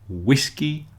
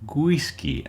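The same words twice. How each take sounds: First: The word starts with a plain W sound. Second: The word starts with a small G sound. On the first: The speaker calls it right. "Don't put a little G at the beginning. It begins with a W" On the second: The speaker calls it wrong. "something like whiskey and windy with a little G sound at the beginning"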